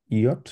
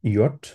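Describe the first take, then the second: First: ইয়ট repeated as "yot"; German letter J repeated. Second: ইয়ট said as German "yot"; German letter J. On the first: Teacher repeating German J. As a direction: say ইয়ট once more for the class. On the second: Teacher modelling German J. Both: Shown as a demonstration. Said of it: "সেটা আমার সাথে উচ্চারণ করার চেষ্টা করবেন".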